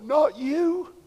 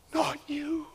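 First: Soft, pained disbelief; quiet plea. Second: Whispered, heartbroken; whispered plea. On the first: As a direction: say it under your breath, heartbroken. Pained disbelief at a fallen believer. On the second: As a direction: breathe it out, barely audible. Pained disbelief fading to whisper. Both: Pretend.

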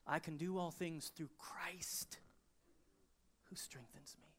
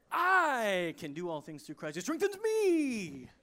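First: Slow and hushed, landing on "Christ"; stress on CHRIST. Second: "I" and "me" drawn out loud and high; wrong emphasis. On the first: Preacher correcting the misread verse, quiet weight on "Christ". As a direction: lean on "Christ", let "me" fall away softly. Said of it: "the emphasis is in the wrong place". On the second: Preacher mocking how we misread the verse, stress on "I" and "me". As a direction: blare a long "I" and a long "me", rush over Christ. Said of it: "we put the emphasis on the wrong syllable". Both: Shown as a demonstration.

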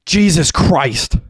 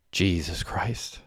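First: High, loud, drawn-out scream; horrified scream. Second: Slow, soft, drawn-out exclamation under the breath; hushed inner thought. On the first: Derek as his brother is shot, horrified scream. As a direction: scream it long and high in horror. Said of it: "screamed Derek". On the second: Derek thinks it on finding Mandy there, hushed and slow. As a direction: say it quietly and slowly, as if thinking. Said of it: "thought Derek". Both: A narrator's reading.

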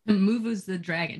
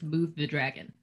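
First: "Move" stretched to "moo-vooz"; playful two-syllable "moo-vooz" for "Move"; imitated mock-Dwarvish. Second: Said in the usual way. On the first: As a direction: say "Move the dragon" slowly as "moovooz the dragon". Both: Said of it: "Just move the dragon".

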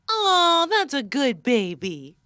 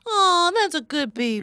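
First: Slow, lightly cooed praise for a dog; talking to a dog. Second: Higher cooed praise for a dog; talking to a dog. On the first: Host in guessing game praising a dog, pet voice. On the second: Host repeating game phrase to a dog, higher pet voice. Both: Acted. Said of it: "No, it's a dog named Baby".

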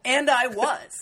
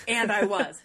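First: Louder, rising "And I was."; emphatic. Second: Said in the usual way. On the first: Real, not acted. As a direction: lean hard into "And I was." with a rise. Emphatic admission, said twice.

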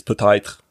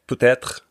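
First: "peut-être" with the second vowel widened into an "eye" glide, like "peut-aïtre"; Quebec pronunciation. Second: "peut-être" with a plain open E in the second syllable; standard French pronunciation. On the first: Showing how Quebec says it, Quebecois "peut-être". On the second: Showing how France says it, standard French "peut-être". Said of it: "in French is peut-être in, um, Quebec". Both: Shown as a demonstration.

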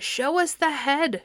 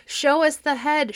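First: High, slow, insistent crowd chant; slower shouting crowd. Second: Loud, high crowd demand; an angry mob yelling at Perseus; shouting crowd. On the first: Crowd chanting at Perseus for the head, slow and high. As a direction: draw the demand out like a chant. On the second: Crowd shouting at Perseus for the head, loud. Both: A narrator's reading. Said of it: "shouted the people".

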